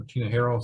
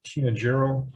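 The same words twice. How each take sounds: First: Second try at Tinajero; alternative pronunciation. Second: First try at Tinajero; unsure pronunciation. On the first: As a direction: offer Tinajero as another guess at how the name sounds. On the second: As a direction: say Tinajero as an uncertain first guess at the name. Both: Real, not acted. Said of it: "I don't know how to pronounce the name".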